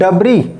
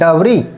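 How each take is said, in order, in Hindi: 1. अंतिम s मौन है। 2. अंतिम s मौन है।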